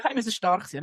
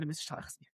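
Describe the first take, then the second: First: Said in the usual way. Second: Murmured to herself, much softer; quiet self-talk. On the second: Real, not acted. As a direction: whisper it to yourself.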